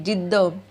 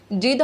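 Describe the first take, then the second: First: जिद्द with the dd held and pressed; जिद्द said with a long, stressed double d; doubled d stressed. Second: जिद with a short single d, no doubling; जिद said with one plain d; wrong way, single d. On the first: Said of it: "थोड़ा सा stress हमें ज़्यादा लगता है". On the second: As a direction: say जिद lightly, the d not held. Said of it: "नहीं, जिद्द". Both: Shown as a demonstration.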